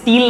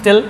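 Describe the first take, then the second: First: The vowel is a long 'ee' sound. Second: The vowel is a short 'i' sound. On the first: The speaker calls it wrong. "इसको स्टील नहीं बोलते हैं" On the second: The speaker calls it right. "स्टल बोलते हैं"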